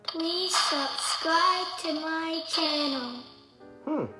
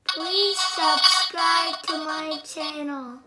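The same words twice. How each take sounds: First: The voice repeats back with an echo. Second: The voice is made mechanical like a robot. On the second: "Now I'm gonna do robot"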